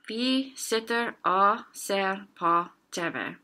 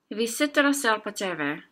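First: The sentence is said slowly. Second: The sentence is said at normal speed. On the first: "and then slower" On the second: "Normal speed"

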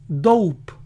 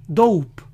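Both takes have the same delivery.

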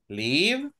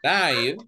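First: The vowel is short, as in 'give'. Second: The vowel is long, as in 'five'. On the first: Someone has their home in a place. "Live is the city. Right? I live in Sonsonate" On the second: A show is performed in real time. "This is, for example, a concert or a show"

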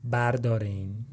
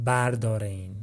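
The two takes are said the same way.

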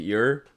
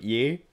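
First: The ending is said the English way, with an r. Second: The ending is said the French way, without r. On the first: "to pronounce it "yer"" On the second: "not like "ye," like in French"

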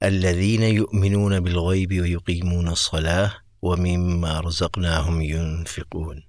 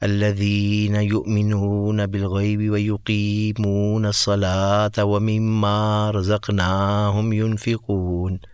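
First: The long vowels are held at normal length. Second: The long vowels are stretched out noticeably longer. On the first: The speaker calls it right. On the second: The speaker calls it wrong.

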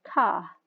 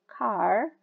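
First: It is said in a British accent. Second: It is said in an American accent. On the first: "British English will read it as car" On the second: "American English will read the word car as car"

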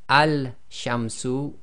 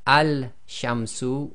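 First: The article's 'l' sound is clearly pronounced. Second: The same.

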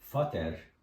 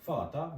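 First: The ending is said with a clear r sound. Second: The ending is said as an a sound. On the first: The speaker calls it wrong. "böyle Vater ya da Mutter şeklinde değil" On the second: The speaker calls it right. "kelimenin sonunda E ve R ile bitiyorsa A gibi"

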